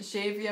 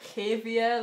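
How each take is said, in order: First: The name starts without an H sound. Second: The name starts with an H sound. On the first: "sometimes I'm in a Xavier mood" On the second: "like a H sound on the X"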